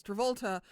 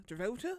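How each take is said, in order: First: Said in the usual way. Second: Travolta said with an odd accent, the r dropped, as /təvoʊtə/; a stumbling Travolta with a strange vowel, /təvoʊtə/, the r gone; odd accent slip. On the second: Real, not acted. Streamer welcoming a friend, fumbles Travolta in a weird accent. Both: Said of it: "I don't know what that fucking accent was".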